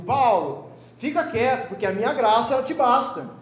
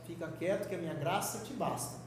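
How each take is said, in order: First: Loud, firm "Paulo, fica quieto"; God speaking louder. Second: A calm, quieter "Fica quieto que a minha graça te basta"; softer God voice. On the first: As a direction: raise the voice like an irritated God laying down the law. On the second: God gently answering Paulo, calm and quieter. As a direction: say "Fica quieto" gently and low-key, before God raises his voice. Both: Retold or imitated. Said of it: "Aí quando Deus fala um pouquinho mais alto".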